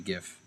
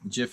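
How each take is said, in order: First: It starts with a hard g sound. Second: It starts with a soft j sound. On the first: This is the form the speaker prefers. The speaker calls it right. "Personally, I think it should be GIF" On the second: This sounds like the name of a peanut butter. The speaker calls it wrong. "GIF is peanut butter"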